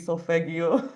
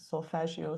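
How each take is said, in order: First: The G is pronounced hard, like in go. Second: The G is pronounced soft, like a J.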